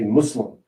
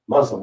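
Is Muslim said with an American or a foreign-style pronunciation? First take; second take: foreign-style; American. First: It is said with a foreign-style pronunciation. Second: It is said with a plain American pronunciation. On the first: The way adopted from another culture. The speaker calls it right. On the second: The everyday way the speaker grew up saying it. The speaker calls it wrong.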